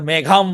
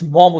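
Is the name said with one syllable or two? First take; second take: two; one. First: The name is said with two syllables. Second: The name is said with one syllable. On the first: The speaker calls it wrong. "এটা মেঘাম বা মম এভাবে কেউ বলে" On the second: The speaker calls it right. "William Somerset মম উচ্চারণ হবে"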